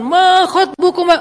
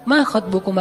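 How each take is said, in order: First: It is said in a loud, preaching tone. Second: It is said in a soft, polite tone.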